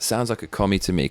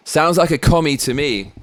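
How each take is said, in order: First: Said in the usual way. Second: Higher, louder punchy comeback; Trump's comeback. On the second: Pretend. Imagining Trump's retort to Biden, punchy and raised. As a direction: fire it back as Trump would. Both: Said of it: "That's what I would have said if I was Trump".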